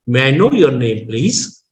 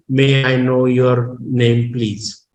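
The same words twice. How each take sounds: First: "May I know your name, please" with pitch peaking on "know"; tone variation. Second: "May I know your name, please" in a level, unchanging tone; slow, no rise on "know" or "please"; plain monotone. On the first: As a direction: lift "know", drop, then rise on "please". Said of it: "we use tone variation". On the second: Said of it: "in plain tone". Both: Shown as a demonstration.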